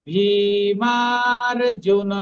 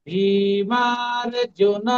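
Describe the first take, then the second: Both takes have the same delivery.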